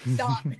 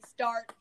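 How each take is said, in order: First: The R sound is dropped. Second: The R sound is fully pronounced. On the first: The speaker calls it right. "We say start" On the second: The speaker calls it wrong. "We don't say start"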